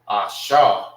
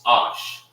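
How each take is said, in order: First: The word ends with an added vowel sound. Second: The word ends on the sh consonant. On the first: The speaker calls it wrong. "You don't say Asha" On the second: The speaker calls it right. "it's Ash"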